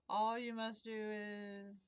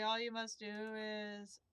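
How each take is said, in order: First: Slow, choked ghost voice; slow gasping words through a cough; overacted death scene. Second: Slow, strained and coughing; coughing through it. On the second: Acted. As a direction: push the words out past a cough. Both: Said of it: "spice stuck in my throat".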